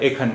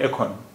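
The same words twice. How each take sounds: First: The second vowel is a plain 'a' sound. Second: The second vowel has a light 'o' sound. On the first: "ये लिखा हुआ है एखन" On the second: "लेकिन हम इसे बोल रहे हैं एखन, हल्का सा ओ आ गया इसमें"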